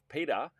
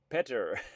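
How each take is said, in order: First: The name is said in an Australian accent. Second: The name is said in a Filipino accent. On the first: "my Australian pronunciation pronunciation of Peter" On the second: "it's Peter in the Philippines"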